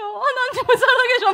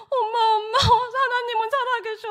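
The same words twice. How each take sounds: First: Higher and louder, imitated crying turning to laughter; laughing through tears. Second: Higher and louder, imitating a sobbing son; tearful cry. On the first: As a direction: repeat it louder, half sobbing, half laughing. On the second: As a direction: call out to mom through tears, much higher. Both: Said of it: "울먹거리면서 전화를 한 거예요".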